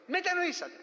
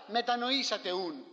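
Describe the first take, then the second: First: Μετανοήσατε lifted high and clearly stressed, opening a list; first of three steps. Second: Slow, closed-off Μετανοήσατε ούν, falling as if nothing follows; final full stop. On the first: Preacher quotes the full call to repent, raised and emphatic. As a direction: pitch Μετανοήσατε up high, as step one of three. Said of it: "Λέει". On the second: Preacher mocks the short version of the call to repent, slow and final. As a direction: say Μετανοήσατε ούν slowly, as the whole message and the end of it. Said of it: "Δεν λέει τέτοια πράγματα". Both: Retold or imitated.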